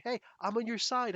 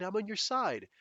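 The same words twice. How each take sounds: First: High, pleading mock friendliness; imitating a fake ally; mock eager ally. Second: Imitating a fake ally again; mock eager ally. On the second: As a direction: repeat it with mock sincerity. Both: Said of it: "people trying to say".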